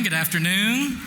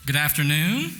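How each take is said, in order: First: Higher, livelier good afternoon; bigger greeting. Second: Said in the usual way. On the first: Shown as a demonstration. Host retries greeting to rouse the room, livelier. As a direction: pump up the crowd with your hello. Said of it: "Try again". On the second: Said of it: "That's pitiful. Try again".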